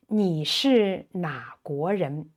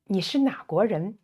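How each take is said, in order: First: 你是哪国人 spaced out syllable by syllable; careful model. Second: 你是哪国人 run together fast; quicker repeat. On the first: Teacher modelling which country question, carefully spaced. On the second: Teacher repeating which country question, at quick natural speed. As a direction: say the whole question in one fast flow. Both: Shown as a demonstration.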